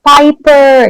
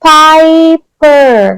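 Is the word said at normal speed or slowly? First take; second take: normal; slow. First: The word is said at normal speed. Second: The word is said very slowly, drawn out.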